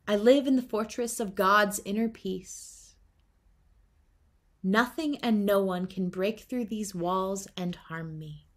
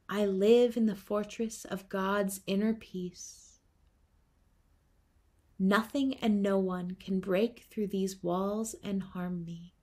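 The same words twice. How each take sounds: First: It is said loudly. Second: It is said quietly.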